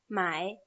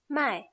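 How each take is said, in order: First: The word is said with the third tone. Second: The word is said with the fourth tone. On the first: It means to buy. "Tercer tono" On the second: It means to sell. "Con un cuarto tono"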